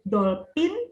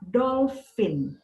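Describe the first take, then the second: First: The middle consonant is sounded as p. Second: The middle consonant is sounded as f. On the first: The speaker calls it wrong. "kita tidak sebut dolphin" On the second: The speaker calls it right. "P dan H dibaca sebagai F"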